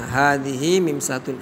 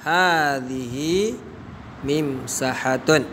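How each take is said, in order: First: Said in the usual way. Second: Hadhihi mimsahatun drawn out very slowly, each syllable stretched; slow model answer. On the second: Shown as a demonstration.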